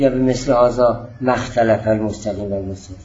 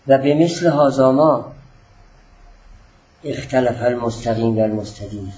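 First: 'Ma' runs into the following word without a pause. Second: There is a short pause right after 'ma'. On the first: The word 'ma' is read as a negation. The speaker calls it wrong. "نگید" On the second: The word 'ma' belongs to the preceding word, not a negation. The speaker calls it right. "بعد از کلمه ما من یه ذره مکس کردم تا ما رو نافیه نگیرید"

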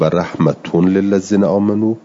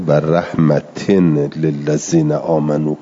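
First: The word rahmat ends with an -un sound. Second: The word rahmat ends with an -in sound. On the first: "رحمتون به رف" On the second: "آقای حمزه خونده"

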